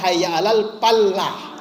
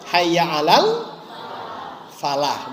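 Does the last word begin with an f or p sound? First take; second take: p sound; f sound. First: The last word begins with a p sound. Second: The last word begins with an f sound. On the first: The speaker calls it wrong. "bukan hayya alal palah" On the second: The speaker calls it right. "Maka hayya alal falah"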